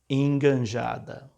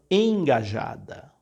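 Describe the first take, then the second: First: It is said with an added n before j. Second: It is said with no nasal n before j. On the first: The speaker calls it wrong. "não é uma pessoa enganjada" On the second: The speaker calls it right. "A palavra é engajado, não tem N"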